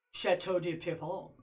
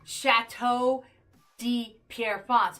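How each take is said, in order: First: Chateau de Pierrefonds said in a mock French accent, clipped and soft; lightly hammed French accent on Chateau de Pierrefonds; bad French accent. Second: Said in the usual way. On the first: Shown as a demonstration. Streamer shows chat the easy way, mock French accent. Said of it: "it's easier to say". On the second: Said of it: "it's hard to say".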